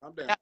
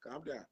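First: Said in the usual way. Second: Soothing hush. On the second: Shown as a demonstration.

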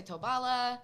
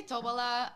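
First: Tobala with an A in the middle; others' pronunciation. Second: Tobola with an O in the middle; speaker's own pronunciation. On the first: Guest giving how some people say it, Tobala with an A. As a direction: say "Tobala", middle vowel A, not O. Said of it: "some people say Tobala". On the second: Guest giving her own way, Tobola with an O. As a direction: say "Tobola", middle vowel O, not A. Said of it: "I say Tobola". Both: Shown as a demonstration.

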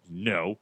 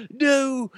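First: Said in the usual way. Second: Very high, wailing faux-olde accent; hammed-up festival-accent refusal; Renaissance fair accent. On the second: Coworker asked did she get the job, hammed-up fair accent. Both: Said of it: "Where's the accent?".

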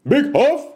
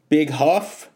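First: High, loud shout of the name; hyped shout-out. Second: Said in the usual way. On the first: Acted. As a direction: shout the name like a hype man. Calling out a listener.

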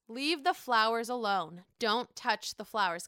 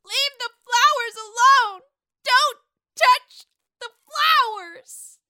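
First: Said in the usual way. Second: Put-on much higher, much louder, slow drunken shriek; drunk Sonia. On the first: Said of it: "When Luann says". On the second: Host redoes Lou's quote as drunk Sonia shrieking. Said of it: "she would probably say Lou's quote just like this".

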